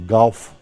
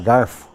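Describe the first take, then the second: First: The consonant before the f is an l. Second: The consonant before the f is an r. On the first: This was said to avoid sounding rustic. "Então elas falavam galfo" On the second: This is the local way that some people were ashamed of. "elas tinham vergonha de falar garfo, achando que estava errado"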